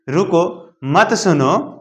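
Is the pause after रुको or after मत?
after रुको. The pause comes right after रुको.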